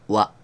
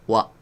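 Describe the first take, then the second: Both takes have the same delivery.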